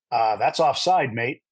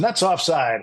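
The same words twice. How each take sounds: First: Slow, lightly imitated New Zealand accent; producer's voice in a mild New Zealand accent. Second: Put-on higher, announcer-like repeat in own accent; mock announcer relaying a prompt; on-air echo. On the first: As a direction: drop it in slowly with a hint of New Zealand. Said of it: "New Zealand accent, and he goes". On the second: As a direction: pass it on pitched up, as if calling the match.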